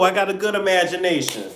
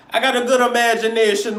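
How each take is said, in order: First: Said in the usual way. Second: Playful put-on Jamaican lilt, higher; Jamaican Caribbean accent. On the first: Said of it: "I don't know what accent I'm doing". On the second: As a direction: do a loose, comic Jamaican accent. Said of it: "I love that Jamaican Caribbean".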